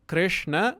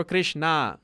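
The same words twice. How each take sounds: First: "Krishna" with a short, light final a; short final vowel. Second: "Krishna" with a long drawn-out final aa; long final vowel. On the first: Teacher contrasting the god's name, "Krishna" ending short. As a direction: say "Krishna" without lengthening the last vowel. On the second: Teacher showing the name that means Draupadi, "Krishna" ending long. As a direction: stretch the last vowel of "Krishna". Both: Shown as a demonstration. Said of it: "If that I is long".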